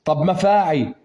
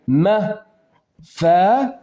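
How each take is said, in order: First: Said in the usual way. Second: مفاعي stretched out very slowly, syllable by syllable. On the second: Shown as a demonstration. Teacher scanning مفاعي for the student, very slowly drawn out. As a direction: drag مفاعي out slowly so each syllable is heard.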